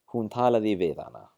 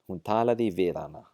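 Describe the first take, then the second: First: The h at the start of 'hana' is dropped. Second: The same.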